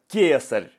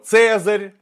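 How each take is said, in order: First: The word begins with a k sound. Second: The word begins with a ts sound. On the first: The speaker calls it right. "это на самом деле латинское «к»" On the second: The speaker calls it wrong. "а не «цезарь»"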